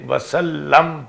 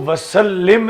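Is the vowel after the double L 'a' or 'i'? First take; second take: a; i. First: The last syllable is said with an 'a' vowel. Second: The last syllable is said with an 'i' vowel. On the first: It tells that peace was sent. The speaker calls it right. "वसल्लम पढ़ना है" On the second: It is a command to send peace. The speaker calls it wrong. "इसको वसल्लिम नहीं पढ़ना"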